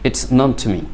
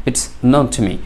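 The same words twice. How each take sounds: Both takes have the same delivery.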